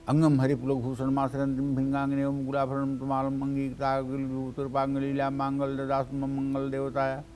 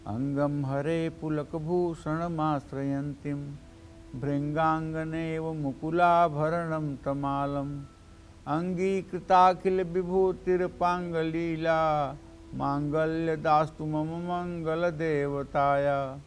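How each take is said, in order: First: It is recited quickly and carelessly. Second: It is recited slowly and calmly.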